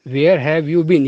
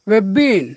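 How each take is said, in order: First: Every word is said fully and separately. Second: The words are squeezed together, stress only on 'been'. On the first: This is how Indian and other speakers say it. "Indian या बाकी लोग बोलेंगे तो पूरा बोलेंगे" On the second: This is how native speakers say it. "तो ये हो गया नेटिव इंग्लिश"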